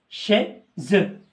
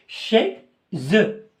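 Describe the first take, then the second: Both takes have the same delivery.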